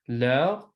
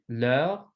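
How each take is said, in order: The two takes are said the same way.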